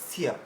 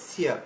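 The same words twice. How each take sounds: No difference in how they are said.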